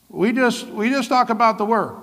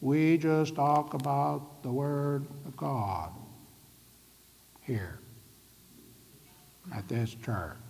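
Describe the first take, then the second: First: Higher, stiff mocking of a Word-only church; mock strict church. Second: Slow and much softer, fading to a whisper on here; hushed. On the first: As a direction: parody a church that bans the Spirit. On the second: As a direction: say it like a secret only this church keeps. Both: Shown as a demonstration. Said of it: "it should be more like this".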